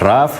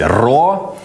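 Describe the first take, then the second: First: The word ends with a 'v' sound. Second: The word ends on a vowel sound.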